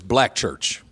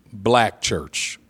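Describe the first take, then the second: First: Said in the usual way. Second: "black church" slowed right down, each word weighted; emphatic repeat. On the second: Real, not acted. Preacher stressing to his listeners what kind of church, slow and emphatic. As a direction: draw out "black church", leaning hard on BLACK.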